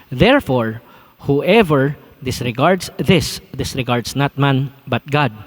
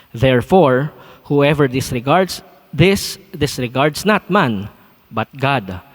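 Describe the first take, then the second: Both takes have the same delivery.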